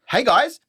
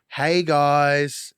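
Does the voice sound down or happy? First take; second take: happy; down. First: It sounds cheerful and happy. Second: It sounds flat and down.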